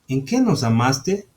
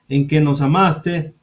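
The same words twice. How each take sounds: First: It is said with a questioning tune. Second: It is said flatly, not as a question.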